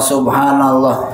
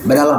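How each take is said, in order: First: It is said fully and carefully. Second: It is said fast and clipped. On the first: The worshipper is patient in prayer. The speaker calls it right. "Harusnya dibaca subhanallah" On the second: The worshipper wants to finish quickly. The speaker calls it wrong. "Karena kita ingin cepat selesai"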